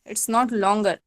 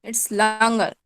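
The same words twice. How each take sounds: First: Longer said with a rounded "aw", as "lawn-gar"; wrong vowel in longer. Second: Longer said with an open, stretched "aa", as "laan-gar"; corrected vowel in longer. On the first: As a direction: say longer slowly with a spelled O sound. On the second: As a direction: draw out longer with an "ah" first vowel. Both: Shown as a demonstration.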